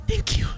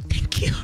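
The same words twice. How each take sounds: No difference in how they are said.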